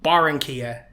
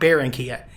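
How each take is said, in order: First: The first syllable has an open 'ah' vowel. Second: The first syllable sounds like English 'bear'. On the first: The speaker calls it right. "Pronounce the A and you're good to go" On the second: The speaker calls it wrong. "it's automatically bear"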